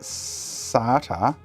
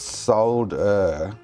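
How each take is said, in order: First: The word is said the American way. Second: The word is said the speaker's own way. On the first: The speaker calls it wrong. "how do they get SATA out of solder?" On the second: The speaker calls it right. "S O L D E R. Solder"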